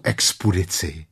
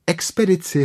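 First: "expedici" said with u for the second e, "expudici"; "expedici" garbled into "expudici"; mispronounced word. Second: "Expedici" said with a clear e, "ekspeditsi", high; high correcting "Expedici", e in place of u; corrected word. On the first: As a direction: say "expedici" wrongly as "ekspuditsi". Pooh mispronounces, Robin corrects. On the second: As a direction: say "Expedici" high, with e in the second syllable. Robin corrects Pooh's word. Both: Acted.

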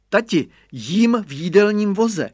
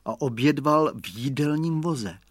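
First: Put-on higher, louder gleeful boy; child shouting. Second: Said in the usual way. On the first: A narrator's reading. Boy shouting to father that he eats in the dining car, higher and louder. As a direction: shout proudly from the cart. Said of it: "křikl Radovan".

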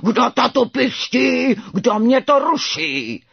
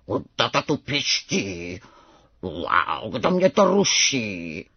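First: Loud, high, slow roaring; full-force drawn-out beast roar; ferocious tiger roar. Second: Low, slow rumbling tiger cub; low drawn-out roar of a young tiger; strange tiger roar. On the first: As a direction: bellow each word like a furious tiger. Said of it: "zařval ukrutněji než tatínek". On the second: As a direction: growl it slowly, like father tiger. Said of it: "zařval divné jako tatínek". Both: A narrator's reading.

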